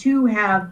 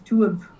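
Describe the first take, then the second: First: The word have is pronounced in full. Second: The word have is reduced to a weak form.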